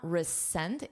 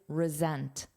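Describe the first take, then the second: First: The middle consonant is a hissing S sound. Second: The middle consonant is a buzzing Z sound. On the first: The speaker calls it wrong. "Notice it's not resent. It's not with an S" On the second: The speaker calls it right. "but this verb is resent. Z. It's a voiced sound"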